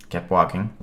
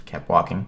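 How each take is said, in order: Both takes have the same delivery.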